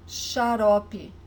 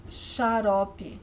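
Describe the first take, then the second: No difference in how they are said.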